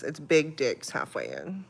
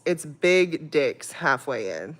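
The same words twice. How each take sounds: First: Said in the usual way. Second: Correcting the name with weight on Big; stress on Big. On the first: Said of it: "That's what it is". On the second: Shown as a demonstration. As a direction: lean on Big in "Big Dick's". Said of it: "No, no, no, it's Big Dick's".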